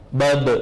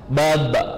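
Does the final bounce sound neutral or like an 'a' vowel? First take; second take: neutral; 'a' vowel. First: The final consonant bounces with its own neutral sound. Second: The final consonant bounces toward an 'a' vowel. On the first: "Bisa dipantulkan suara aslinya" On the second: "dipantulkan mengarah ke huruf berharokat fathah"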